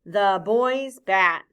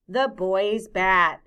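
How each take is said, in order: First: Put-on "The boy's bat." extra slow, a bit louder; drawn-out choral reading; slow choral repeat. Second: Put-on "The boy's bat." said slowly and clearly; careful slow demonstration; slow model phrase. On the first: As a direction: say it together, very slowly. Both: Shown as a demonstration. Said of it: "Say that with me".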